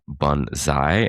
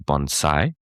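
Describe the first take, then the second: First: The middle consonant sounds like a z. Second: The middle consonant sounds like an s. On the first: The speaker calls it wrong. "we were saying bonsai instead of" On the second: The speaker calls it right. "bonsai with an S"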